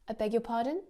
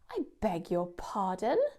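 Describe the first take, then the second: First: It sounds puzzled, like asking for repetition. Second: It sounds offended and indignant. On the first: The speaker wants it said again. "If we want to use it to ask for repetition, you've got to say it like this" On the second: The listener said something offensive. "it can be used to show offence"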